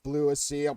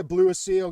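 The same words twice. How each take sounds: First: Said in the usual way. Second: BLEW a seal, louder, savoured; punchline repeated. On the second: Shown as a demonstration. Host repeating his punchline to chat, louder. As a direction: relish the pun. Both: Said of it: "Barry Campbell was already over that joke".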